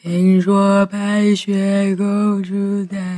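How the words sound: It is said in a slowed, dragging tape voice.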